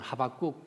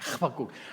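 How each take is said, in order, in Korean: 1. h 소리는 부드럽고 매끄러워요. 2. h 소리는 거칠고 목에서 나는 소리예요. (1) "하박국 부드럽게 하면 안 됩니다" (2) "H가 아주 가래 끓는 거루로"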